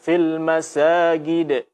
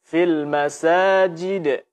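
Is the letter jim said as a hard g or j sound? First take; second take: hard g; j. First: The jim is said as a hard g sound. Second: The jim is said as a j sound. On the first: The speaker calls it wrong. "Jangan sampai dibaca" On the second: The speaker calls it right.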